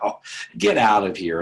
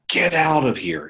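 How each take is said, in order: First: It is said playfully, with a laugh. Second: It is said angrily, in a harsh tone.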